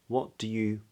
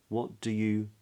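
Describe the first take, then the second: Both takes have the same delivery.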